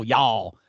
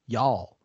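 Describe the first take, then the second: First: Drawn-out Southern "y'all" with the vowel stretched, lower pitch; Southern drawl. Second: Said in the usual way. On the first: Shown as a demonstration. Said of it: "Don't add the draw". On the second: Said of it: "It's Y A L L".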